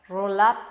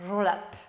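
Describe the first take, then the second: First: "Roll-up" said the French way, dropping the R and ending on a rise; joking French-accented English. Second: Said in the usual way. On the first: Shown as a demonstration. Coach jokes to viewers about her "Roll-up" accent. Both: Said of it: "avec mon super accent".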